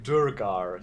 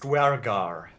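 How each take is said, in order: First: The first vowel is a rounded umlaut sound. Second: The word begins with a 'dw' glide. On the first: The speaker calls it wrong. "aren't pronounced as umlauts, like Durgar" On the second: The speaker calls it right. "I'm guessing it's Dwergar"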